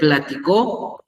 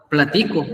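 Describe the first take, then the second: First: The stress is on the last syllable. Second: The stress is not on the last syllable. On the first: It is the past tense. "es el verbo pasado" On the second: It is the present tense.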